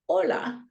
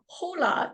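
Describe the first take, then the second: First: The word begins with no h sound. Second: The word begins with an audible h sound. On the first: The speaker calls it right. "the H's are often silent" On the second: The speaker calls it wrong. "it's not hola"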